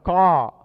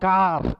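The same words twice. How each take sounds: First: The word ends without a strong r sound. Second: The word ends with a strong r sound. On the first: The speaker calls it right. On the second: The speaker calls it wrong.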